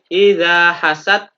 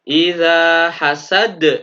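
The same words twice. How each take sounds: First: The final d stops flat without any bounce. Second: The final d bounces with an echoing release. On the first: The speaker calls it wrong. "tidak boleh" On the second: The speaker calls it right. "seperti itu harus memantul"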